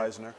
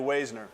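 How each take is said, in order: First: The A in the name is silent. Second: The A in the name is sounded. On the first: The speaker calls it right. "A silent" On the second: The speaker calls it wrong. "Everybody screws it up. It's normally"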